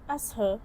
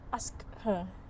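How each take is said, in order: First: The k sound in ask is dropped. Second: The k sound in ask is pronounced. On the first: "the sound k in ask is elided" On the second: "instead of ask her"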